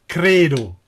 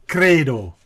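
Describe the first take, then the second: The two takes are said the same way.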